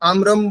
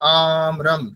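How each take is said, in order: First: The first vowel is short and quick. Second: The first vowel is held longer. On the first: The speaker calls it wrong. "আমরাম বলে দিলে কিন্তু হবে না" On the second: The speaker calls it right. "আটা একটু বেশি সময় ধরে উচ্চারণ করতে হবে"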